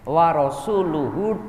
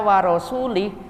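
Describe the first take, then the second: First: The word ends with a u vowel after l. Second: The word ends with an i vowel after l. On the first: God and His Messenger are free of the idolaters. The speaker calls it right. "dan utusan Allah juga sama, berlepas" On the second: God is free of the idolaters and of the Messenger. The speaker calls it wrong. "membaca dengan harokat salah, maknanya bisa fatal"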